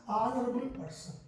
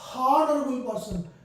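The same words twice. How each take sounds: First: The first word starts with a vowel sound. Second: The first word starts with an h sound. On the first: The speaker calls it right. "We pronounce honorable person" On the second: The speaker calls it wrong. "we don't say honorable person"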